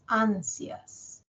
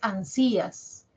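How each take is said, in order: First: The a sounds stronger than the i. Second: The i sounds stronger than the a. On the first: The speaker calls it right. "la mayor fuerza de voz la tiene A" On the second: The speaker calls it wrong. "No es ansías"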